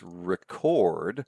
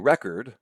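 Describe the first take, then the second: First: The stress is on the second syllable. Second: The stress is on the first syllable. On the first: It is the verb. "the more pronounced syllable is the second one" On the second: It is the noun. "that's the noun, ... the accent comes on the first syllable"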